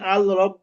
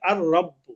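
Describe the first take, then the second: First: The L of the article is clearly pronounced. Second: The L merges into a doubled R sound. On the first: The speaker calls it wrong. "আমি আল রব্ব বলতে পারবো না" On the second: The speaker calls it right. "আমাকে বলতে হবে আর রব্ব"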